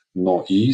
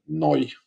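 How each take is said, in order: First: "Noi" said as two syllables, No-i, the vowels kept apart. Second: "noi" glided into a single syllable, pitched higher; one-syllable wrong version. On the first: Teacher showing students "Noi" in two syllables. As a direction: split "Noi" into no and i, no glide between them. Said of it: "se pronunță în două silabe". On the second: Teacher contrasting the wrong single-syllable "noi" for students. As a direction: run "noi" together as one diphthong, the wrong way. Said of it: "nu noi, într-o silabă". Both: Shown as a demonstration.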